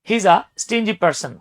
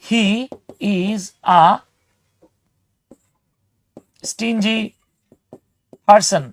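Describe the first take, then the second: First: The first words run together as one chunk. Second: Each word is said separately and fully. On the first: "হি ইজ আ না বলে এটাকে বলা হয় হিজা" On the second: "একটা একটা করে word বলি,এটাকে হচ্ছে ভেঙে ভেঙে বলা"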